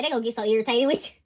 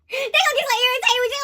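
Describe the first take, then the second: First: Said in the usual way. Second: High, fast, laughing repeat. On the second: Real, not acted. Reader repeats the line to viewers, laughing. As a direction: laugh it out quickly.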